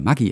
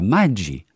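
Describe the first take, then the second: First: The name has the common German pronunciation. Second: The name has the Italian pronunciation. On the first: This is how everyone usually says it. "Wir sagen ja alle Maggi immer" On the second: This is the original pronunciation of the name. "dass das Produkt eigentlich italienisch ausgesprochen wird"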